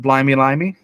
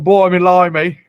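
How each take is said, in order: First: It is said in the speaker's ordinary accent. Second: It is said in a put-on British accent. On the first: The speaker calls it wrong. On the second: The speaker calls it right.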